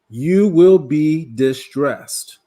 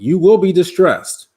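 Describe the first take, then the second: First: It is said very slowly. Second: It is said at a normal pace.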